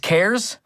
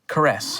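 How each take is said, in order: First: It is said with one syllable, like cares. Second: It is said with two syllables, like caress. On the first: The speaker calls it right. "it's it's CARES?" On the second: The speaker calls it wrong. "as I like to pronounce it, caress"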